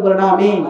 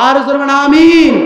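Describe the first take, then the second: First: Said in the usual way. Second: "Amin" called out louder; urging the crowd to answer "Amin" more loudly. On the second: Shown as a demonstration.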